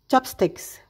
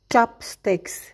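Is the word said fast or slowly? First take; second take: fast; slowly. First: The word is said quickly. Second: The word is said slowly. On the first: "Sekarang mari lakukan dengan lebih cepat" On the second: "Kita mulai dengan perlahan"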